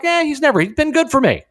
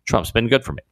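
First: High-pitched, dismissive imitation. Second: Said in the usual way. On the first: Host voices rapper now warming to Trump, high mock quote. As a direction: wave off old objections in a high mock voice. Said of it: "is now like". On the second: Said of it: "And I'm paraphrasing".

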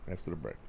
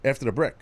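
First: Sulky mutter. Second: Said in the usual way. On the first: Real, not acted. Host sulking after the producer overrules him, muttering. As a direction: drop to a low, soft, sulky grumble.

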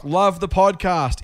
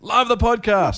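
First: Loud capitals. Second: Much higher, slow, hammed-up cheer; exaggerated capitals. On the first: Host reading Kate's all-caps message, high and slow. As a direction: read it high and stretched out, slowly. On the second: Host re-reading Kate's all-caps praise, hammed-up and high. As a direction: belt the all-caps greeting in a big put-on voice. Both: Shown as a demonstration. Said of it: "that's why I said it loudly".

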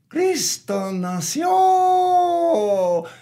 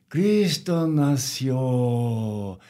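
First: High, drawn-out crowed shout; rooster crow. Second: Said in the usual way. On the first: Acted. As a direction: crow it out like a rooster, last syllable stretched. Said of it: "the rooster crowed".

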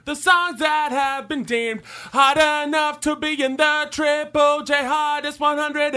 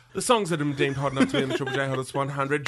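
First: Sung. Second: Rattled off quickly, lower; fast spoken. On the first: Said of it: "sung take of repeated line". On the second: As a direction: rush through it. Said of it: "spoken fast take". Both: Shown as a demonstration.

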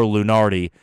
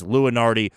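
First: LUNARDI said loo-NAR-dee; second pronunciation. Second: LUNARDI said loo-uh-NAR-dee; first pronunciation. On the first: Podcaster weighing two versions, Lunardi as loo-NAR-dee. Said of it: "if it's Lunardi or Lunardi". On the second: Podcaster weighing two versions, Lunardi as loo-uh-NAR-dee. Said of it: "changed my opinion on if it's". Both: Shown as a demonstration.

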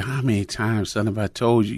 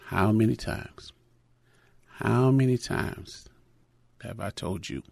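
First: A father's stern telling-off, normal loudness; upset scolding. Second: Hushed and slow, fading almost to nothing; quiet inner voice. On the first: Upset father scolds his crying son, stern telling-off. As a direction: scold the child for not listening. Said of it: "obviously upset". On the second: God's voice echoes the father's scolding, hushed and slow. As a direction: let it come back softly like God speaking. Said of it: "I heard his voice say". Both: Retold or imitated.

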